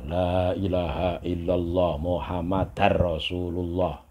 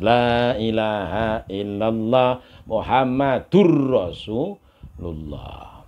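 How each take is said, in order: First: Muhammad is followed by an 'ar' ending. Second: Muhammad is followed by an 'ur' ending. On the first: The speaker calls it wrong. "Banyak orang yang salah zikir ini" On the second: The speaker calls it right. "Kalau dalam kalimat yang lepas"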